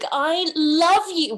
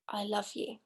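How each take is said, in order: First: It is said in an overdone, dramatic way. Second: It is said in a plain, moderate way.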